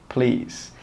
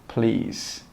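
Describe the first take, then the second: No difference in how they are said.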